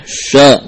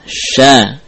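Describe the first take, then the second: First: "Sya" said heavy, with a thickened rounded vowel; wrongly thick. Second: "Sya" said light, with a thin open vowel; thinned. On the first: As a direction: thicken "Sya" as the mistake to avoid. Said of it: "Jangan dibaca dengan tebal". ("Sya" dibaca tebal) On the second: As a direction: keep "Sya" thin, not heavy. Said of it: "dengan menipiskannya". ("Sya" dibaca tipis) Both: Shown as a demonstration.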